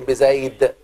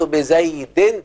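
First: The word ends on a bare consonant. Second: The word ends with a vowel and n sound. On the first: The word is read at a stop. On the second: The word is read in the middle of speech.

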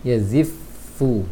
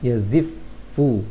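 The two takes are said the same way.

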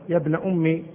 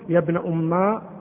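First: The last word ends in a short i vowel. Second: The last word ends in a long a vowel. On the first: The speaker calls it right. "بالكسر" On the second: The speaker calls it wrong. "بالألف"

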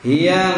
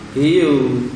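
First: The word ends with an 'a' vowel. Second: The word ends with a 'u' vowel. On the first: The speaker calls it right. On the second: The speaker calls it wrong. "Jadi jangan dibaca hiu"

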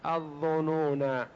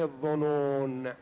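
First: The word ends with a long final a vowel. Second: The word ends on n without a vowel. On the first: "الظنون قراءتان بالألف" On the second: "والقراءة الثانية بدون ألف"

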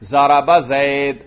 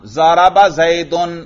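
First: The last word stops without its case ending. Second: The last word ends with a full -un ending. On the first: The word is paused on, so no case ending is given. "اگر میں اس پر وقف کروں" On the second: The word is fully declined with its case ending. "اس کو اعراب دیا گیا ہے باقاعدہ"

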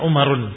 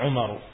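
First: The name ends with an added n sound. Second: The name ends on a vowel without n. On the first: The speaker calls it wrong. "tidak dibaca Umarun" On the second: The speaker calls it right. "tetapi baca Umaru"

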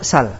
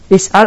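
First: The opening syllable and glottal stop are dropped. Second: The word keeps its opening syllable and glottal stop. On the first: "terjadi pembuangan jadi sal" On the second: "Asalnya apa?"

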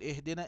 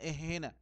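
First: The d sound is clearly pronounced. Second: The d sound is merged away. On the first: The speaker calls it right. "بدل ما يقول اهدنا" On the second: The speaker calls it wrong. "يدغم بإبدال في غير محل الإدغام"

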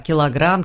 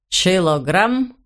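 First: The word begins with a 'k' sound. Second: The word begins with a 'ch' sound. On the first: The speaker calls it right. "не мог правильно произносить слова" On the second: The speaker calls it wrong. "У него получалось"

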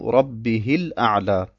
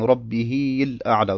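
First: The vowel after the h stays short. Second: The vowel after the h is drawn out long. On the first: The speaker calls it right. "sondern ich muss sagen" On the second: The speaker calls it wrong. "Ich darf nicht sagen"

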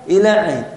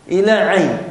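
No difference in how they are said.

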